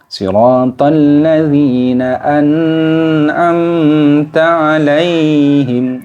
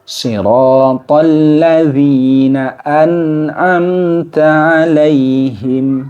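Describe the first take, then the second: First: A vowel in the last word is held too long. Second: The vowels in the last word are kept short. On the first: The speaker calls it wrong. "terlalu lama ditahan" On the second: The speaker calls it right. "yang baik sesuai dengan uh, kaidah ilmu tajwid"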